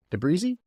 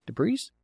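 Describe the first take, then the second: First: De Brise asked high and rising; testing how to say De Brise; unsure pronunciation. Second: De Brise again, even higher rising; second try at De Brise, still doubtful; questioning the name once more; unsure retry. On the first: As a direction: try out De Brise with a questioning lift. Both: Shown as a demonstration.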